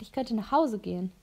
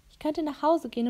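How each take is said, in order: First: Said in the usual way. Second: "Ich könnte nach Hause gehen" pitched higher, stress falling on "Hause"; repeating herself firmly, "Hause" stressed and higher; insistent repeat. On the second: Acted. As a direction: press the point home on "Hause".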